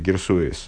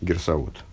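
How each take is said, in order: First: It is said with a traditional Hebrew pronunciation. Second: It is said with a modern Hebrew pronunciation.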